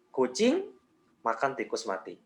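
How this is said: There is a pause after "kucing". "kita kasih jeda di kucing"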